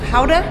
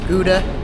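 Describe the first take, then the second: First: The name is said the local Dutch way. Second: The name is said the American English way.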